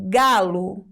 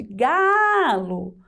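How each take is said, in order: First: Said in the usual way. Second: "Galo" with GA held long, then a short LO; stressed first syllable. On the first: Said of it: "por mais que às vezes eu falo galo". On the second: Shown as a demonstration. Teacher answering which syllable is stronger, GAAA drawn out in "Galo". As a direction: stretch the GA of "Galo" right out and drop onto LO. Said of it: "Qual sílaba é mais forte?".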